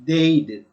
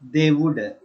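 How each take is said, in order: First: The words are merged into one short syllable. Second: Both words are said fully and separately. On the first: "contrasted form, and its pronunciation" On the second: "Full form"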